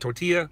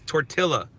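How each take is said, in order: First: The word is pronounced the usual accepted way. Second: The word is pronounced the way it is spelled. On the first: "I know it's" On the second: "Say it how it's spelled"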